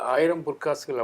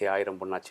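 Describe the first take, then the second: First: It is said in a plain speaking voice. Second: It is said mimicking a comic actor's pronunciation.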